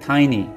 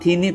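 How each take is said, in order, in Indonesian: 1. Vokal pertama berbunyi seperti 'eye'. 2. Vokal pertama berbunyi seperti 'ee'. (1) "tapi tiny" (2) "Not teeny"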